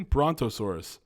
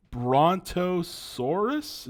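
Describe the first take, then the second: First: Said in the usual way. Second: Brontosaurus drawn out slowly with a rising, questioning tune; reading out the name and doubting it; unsure question. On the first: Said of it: "Yeah, yeah". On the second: Real, not acted. Checking a dinosaur name aloud, Brontosaurus slowly rising and unsure. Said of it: "Is that a thing?".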